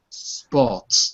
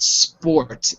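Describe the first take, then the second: First: It is said in a British accent. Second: It is said in a non-British accent. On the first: The speaker calls it right. "This is British English, It's actually sport" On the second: The speaker calls it wrong. "it's not sport"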